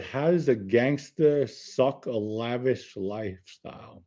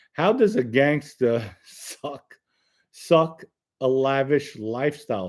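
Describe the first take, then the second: First: Puzzled reread. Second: Said in the usual way. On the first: Shown as a demonstration. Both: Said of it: "I really don't know what you mean".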